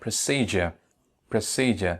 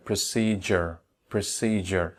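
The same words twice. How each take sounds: First: "Procedure" said as pruh-SEE-juh, final r dropped; "Procedure" ending in an open "juh"; British pronunciation. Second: "procedure" said as pruh-SEE-jer, r sounded; "procedure" carefully said with a "jer" ending; d pronounced as j. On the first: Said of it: "লাস্টের letter আর or র সাউন্ডটি এখানে উচ্চারণ করা হয় না". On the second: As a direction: model "procedure" with the d turned into j. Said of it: "letter ডি উচ্চারণ হচ্ছে জয়ের মতো". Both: Shown as a demonstration.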